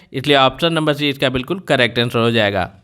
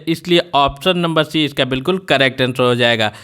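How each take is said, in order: No difference in how they are said.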